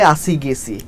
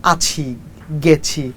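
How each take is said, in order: First: "আসি, গেছি" with ছ softened to s; Bangladeshi s for ছ. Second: "আছি, গেছি" with a clear aspirated chh; standard ছ pronunciation. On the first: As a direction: say "আসি, গেছি" as asi, gesi, Dhaka style. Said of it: "but আমরা বলি". ("আসি, গেছি"-তে ছ-কে দন্ত্য স-এর মতো উচ্চারণ) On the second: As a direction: say "আছি, গেছি" with a careful chh sound, not s. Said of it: "ছটাকে খুব শুদ্ধ উচ্চারণ করেন". ("আছি, গেছি"-তে ছ-এর শুদ্ধ উচ্চারণ) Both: Shown as a demonstration.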